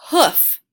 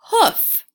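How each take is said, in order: First: "hoof" said loud and stretched; model word. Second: "hoof" blended, high and loud; blended word. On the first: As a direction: present "hoof" boldly to the class. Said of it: "Now I have the word". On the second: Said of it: "let's pronounce the word". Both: Shown as a demonstration.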